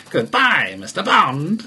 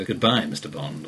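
First: Goodbye, Mister Bond clipped into separate hits, higher and louder; staccato. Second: Smooth, low and suave. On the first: Retold or imitated. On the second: Shown as a demonstration. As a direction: purr it like a suave villain. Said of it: "Anybody else would just go ... quite suave".

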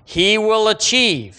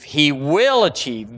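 First: Achieve raised high; emphatic first take. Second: Said in the usual way. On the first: Shown as a demonstration. Preacher proclaiming God's promise, raised and emphatic. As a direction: proclaim it upward.

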